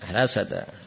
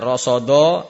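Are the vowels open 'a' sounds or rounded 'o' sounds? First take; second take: open a; rounded o. First: The vowels sound open, like 'a'. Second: The vowels sound rounded, like 'o'. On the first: The speaker calls it right. "Ingat hati-hati rasada" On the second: The speaker calls it wrong. "jangan rasodo"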